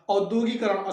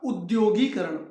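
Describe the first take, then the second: First: The word begins with an 'au' vowel. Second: The word begins with an 'oo' vowel. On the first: The speaker calls it wrong. "औद्योगीकरण अशुद्ध है" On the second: The speaker calls it right. "ऊ लगाएंगे, औ नहीं लगाएंगे"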